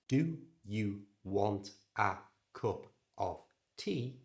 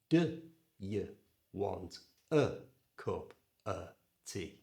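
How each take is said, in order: First: The small words keep their full vowel sounds. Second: The small words are reduced to a schwa.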